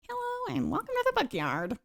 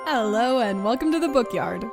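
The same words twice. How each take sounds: First: It is said in a put-on voice. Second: It is said in her normal voice.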